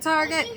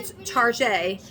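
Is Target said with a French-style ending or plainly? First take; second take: plain; French-style. First: The word ends with a plain hard 't' sound. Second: The word ends with a French-style 'zhay' sound. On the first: It is just the ordinary store name. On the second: It makes the store sound fancy and rich.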